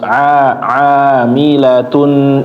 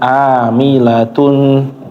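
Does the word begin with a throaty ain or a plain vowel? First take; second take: ain; plain vowel. First: It begins with a throaty ain sound. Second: It begins with a plain a vowel. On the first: The speaker calls it right. "Terus a amilatun" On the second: The speaker calls it wrong. "jangan amilatun"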